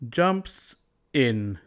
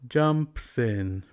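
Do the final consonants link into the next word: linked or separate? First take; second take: separate; linked. First: The words are said separately without linking. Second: The final consonants move forward onto the next word.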